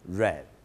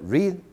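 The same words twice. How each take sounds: First: The word has a short 'e' vowel. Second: The word has a long 'ee' vowel. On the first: This is the past form of the verb. "la pronunciación ... es read" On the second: This is the present form of the verb. "en vez de ser read"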